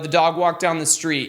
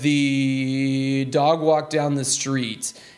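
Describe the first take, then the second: First: It is spoken at a somewhat higher pitch. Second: It is spoken at a somewhat lower pitch. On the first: This is a comfortable range for the speaker himself. "so for me, probably a little bit higher" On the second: This is a comfortable range for another person. "What if we raise it up to about here?"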